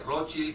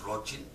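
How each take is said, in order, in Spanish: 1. El nombre se dice al estilo francés. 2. El nombre se dice al estilo alemán. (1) "Que sabe francés dice Rothschild" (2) "que sabe alemán, porque es, viene del alemán, es Rothschild"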